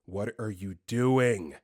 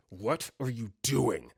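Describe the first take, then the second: First: Lower, slow accusation; angry, dead-eyed. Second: Slow, menacing sleep-talker; angry. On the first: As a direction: say it slowly with cold anger. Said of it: "Him just staring at me with, like, dead eyes". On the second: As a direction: space the words out in cold anger. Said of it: "He's so angry". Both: Retold or imitated.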